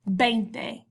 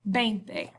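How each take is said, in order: First: The word begins with a B sound. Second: The word begins with a B sound.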